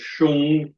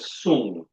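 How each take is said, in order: First: The word begins with an 'sh' sound. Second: The word begins with an 's' sound. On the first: "some people pronounce it Shung" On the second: "the concept of Song"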